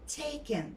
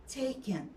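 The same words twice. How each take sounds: Both takes have the same delivery.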